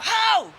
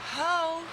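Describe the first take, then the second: First: It is yelled in a panicked voice. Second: It is said in a calm, even voice. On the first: "kind of a yell, panic sound to your voice" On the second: "you're not going to go"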